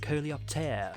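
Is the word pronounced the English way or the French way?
French. The word is pronounced with French sounds.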